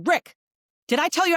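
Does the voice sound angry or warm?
angry. The voice sounds stern and angry. "a little bit of a mad voice"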